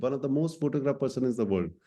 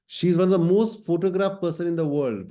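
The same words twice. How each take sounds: First: Said in the usual way. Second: Louder and higher, slow, with weight on most; emphatic first take. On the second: Shown as a demonstration. Teacher stressing a fact to students, louder and higher. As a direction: announce "most photographed" as a big fact.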